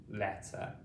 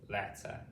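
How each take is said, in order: No difference in how they are said.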